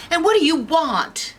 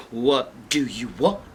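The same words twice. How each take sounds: First: High-pitched, startled demand; alarmed Goldilocks. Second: Low bear voices echoing her; indignant bears. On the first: Girl confronting three strange bears, high alarm. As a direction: ask it in a high panicky voice. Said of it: "And Goldilocks is like". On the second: Bears repeat the girl's question, low and indignant. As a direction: throw the question back, pitched down. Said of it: "And the bears say". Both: Acted.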